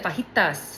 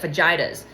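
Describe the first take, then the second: First: It has a native Spanish pronunciation. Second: It has a strongly anglicized English pronunciation. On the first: The speaker calls it right. "like the native accent" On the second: The speaker calls it wrong.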